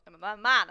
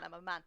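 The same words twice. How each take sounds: First: Loud bluff. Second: Said in the usual way. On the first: Pretend. Bluffing in character.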